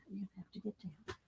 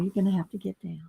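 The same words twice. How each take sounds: First: Fast, hushed repeat; soft whisper. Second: Said in the usual way. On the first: Real, not acted. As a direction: murmur it quickly to the pet. Repeats softly to pet.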